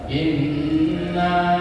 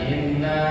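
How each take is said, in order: First: The doubled n is held long and firm. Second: The doubled n is said short and light. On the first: The speaker calls it right. "gitu bacanya" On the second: The speaker calls it wrong. "Jangan inna, tapi harus dipertegas"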